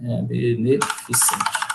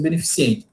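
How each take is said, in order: First: Beneficente drawn out very slowly and softly; slow correct form. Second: Beneficiente with the extra i, said quickly; common mistake. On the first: Teacher firmly giving the right beneficente. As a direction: lay out be-ne-fi-cen-te slowly. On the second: Teacher admitting she says beneficiente. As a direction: toss off beneficiente fast. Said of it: "mas não é beneficente". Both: Shown as a demonstration.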